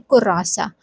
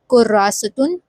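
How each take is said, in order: First: The word ends in a short 'a' sound. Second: The word ends with the full 'atun' ending. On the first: This is the casual spoken form. "in casual way of speaking, in speech, we can just say kurasa" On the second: This is the formal full form. "the proper way of writing, be it in formal way, kurasatun will be correct"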